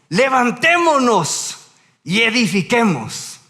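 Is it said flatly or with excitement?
excitement. It is read with lively excitement.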